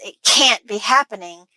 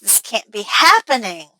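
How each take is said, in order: First: The stress is on can't, sounding disbelieving. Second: The stress is on happening, rising at the end.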